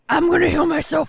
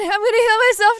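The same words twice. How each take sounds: First: The voice is a low, growling character voice. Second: The voice is a normal, non-growling voice. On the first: The speaker calls it wrong. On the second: The speaker calls it right.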